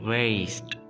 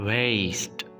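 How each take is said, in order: No difference in how they are said.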